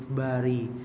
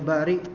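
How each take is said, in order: First: The word ends without a glottal stop. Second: The word ends with a glottal stop.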